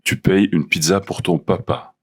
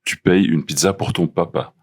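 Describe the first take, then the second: No difference in how they are said.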